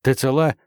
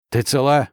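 First: Raised shout over the roar; shouting over noise. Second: Raised call over the engine; shout. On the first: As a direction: yell the question over the engine. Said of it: "перекрикивая рёв двигателя". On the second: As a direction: shout the question back. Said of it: "крикнул он". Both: A narrator's reading.

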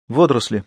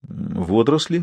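First: Falling statement tune; flat statement. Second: «Водоросли?» asked back with a rising end; puzzled question. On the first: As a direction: state it flatly with a falling end. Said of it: "сказал Ивэй". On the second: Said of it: "переспросил Вольск". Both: A narrator's reading.

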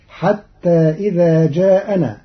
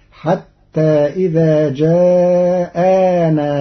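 First: "جاءنا" as jaana, short; singular reading. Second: "جاءنا" drawn out very slowly with a long aa after the hamza; long alif after hamza. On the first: Teacher recites the usual reading first. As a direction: recite "جاءنا" without an extra alif. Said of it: "قرأ قالون كلمة جاءنا". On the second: Teacher shows students Qalun's added alif, very slow. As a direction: recite "جاءنا" as jaa'aanaa, stretched. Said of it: "بألف بعد الهمزة". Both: Shown as a demonstration.

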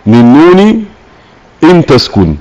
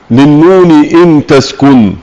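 First: Said in the usual way. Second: Slow, measured verse recitation of "للنون إن تسكن"; reciting the verse. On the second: Acted. Teacher reads the poet's verse to students, slow recitation. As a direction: intone the poet's line slowly, chant-like. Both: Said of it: "قول الناظم رحمه الله تعالى".

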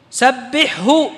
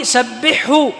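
First: سبحه said very slowly, ح and ه each clear and separate; slowed demo of سبحه. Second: Said in the usual way. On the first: Shown as a demonstration. Teacher showing students the clear ح before ه in سبحه. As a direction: stretch سبحه out so the ح and ه both sound. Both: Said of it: "وأظهر الحاء مع الهاء".

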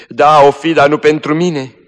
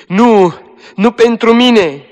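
First: High, loud bitter retort; dying girl answers bitterly, high and loud; bitter outburst. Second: "nu pentru mine" high, loud and slow, falling; "nu pentru mine" wailed high and slow, falling at the end; despairing wail. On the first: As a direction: throw the words back bitterly. Dying girl's bitter reply. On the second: Dying girl repeats despairing. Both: Acted.

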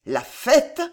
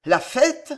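First: Stammered, higher and louder, bewildered; dazed drunk stammer. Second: Higher, louder, booming with mirth; roaring laugh. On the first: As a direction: stumble over it in drunken confusion. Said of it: "bégaya Montluc". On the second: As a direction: shout it through a big laugh. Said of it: "son rire fit trembler les vitraux". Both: A narrator's reading.

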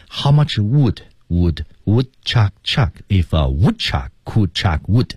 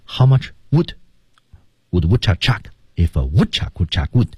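First: Slow, each wood fully sounded; how much wood read slowly with full vowels; wrong, every word full. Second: Would reduced, rhythm kept; how much wood with weakened would; weak forms. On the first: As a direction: plod through every word. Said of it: "这样的句子是不能这么读的". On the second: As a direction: let would shrink and flow. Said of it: "情态动词...被弱读". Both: Shown as a demonstration.

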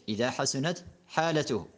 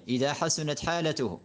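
The two takes are said the same way.

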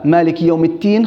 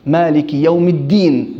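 First: "التين" with t replacing d; wrong ta. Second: "الدين" spoken with a clear d; careful d sound in "الدين"; correct dal. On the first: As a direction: say "التين" as at-tiin. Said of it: "خلط". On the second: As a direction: say "الدين" as ad-diin, voiced dal. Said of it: "بالدال". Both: Shown as a demonstration.

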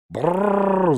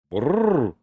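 First: High, loud indignant dragon roar; the pet dragon shrieking in protest; yelled brrr. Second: A puzzled little brrr from the dragon, rising then dropping; a curious rumble with a hint of surprise; a mild, wondering dragon grumble; surprised brrr. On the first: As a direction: bellow it out in outrage. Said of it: "заорал великий домашний". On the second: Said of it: "удивился мой великий дракон". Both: A narrator's reading.

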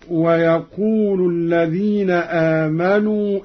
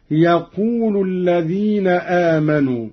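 First: Said in the usual way. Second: يقول starting straight on "ya", ending in u; dropped waw. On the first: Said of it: "قرأ قالون بحذف الواو". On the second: Shown as a demonstration. Teacher demonstrating Qalun's reading, يقول without waw, as "yaqulu". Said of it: "بحذف الواو ورفع اللام".

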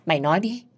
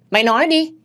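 First: Restrained first demand before the outburst; controlled, angry prompting; angry demand, held in. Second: High, loud shouted demand; raised-pitch angry outburst; angry yell. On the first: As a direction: demand it without raising your voice. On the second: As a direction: explode on the repeated demand. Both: A narrator's reading. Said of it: "Tôi gào ầm lên".

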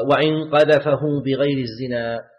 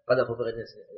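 First: Slow and louder, each word of "وإن قذفه بغير الزنا" set apart; reading the text out. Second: Said in the usual way. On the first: Shown as a demonstration. Teacher quoting the book to his students, slow and emphatic. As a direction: read the author's line out slowly and weightily, leaning on "قذفه". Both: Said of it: "يقول رحمه الله".

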